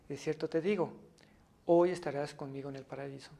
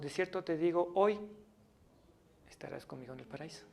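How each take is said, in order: First: The pause comes before the word 'hoy'. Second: The pause comes after the word 'hoy'.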